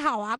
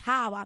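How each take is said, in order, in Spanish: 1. El acento está en la segunda sílaba. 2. El acento está en la primera sílaba.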